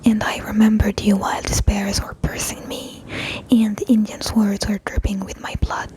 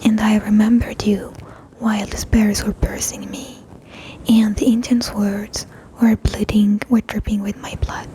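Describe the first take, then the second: First: It is said at normal speed. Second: It is said slowly.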